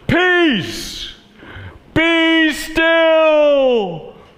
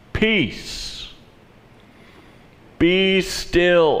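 First: It is said loudly, almost shouted. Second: It is said at a normal, quieter volume.

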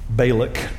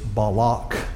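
First: The name is pronounced the American way. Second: The name is pronounced the Hebrew way. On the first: "because we're in Texas, we're going to say Balak" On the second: "in the Hebrew, it's Balak"

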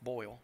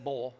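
First: The word is said with a standard vowel. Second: The word is said with a Southern drawl. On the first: "It's boil" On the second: "I didn't say boil"

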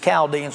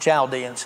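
First: The word begins with a hard 'k' sound. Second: The word begins with a 'ch' sound. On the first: The speaker calls it right. "it's almost always pronounced with a K and not a CH. It's the Chaldeans" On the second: The speaker calls it wrong. "not the Chaldeans"

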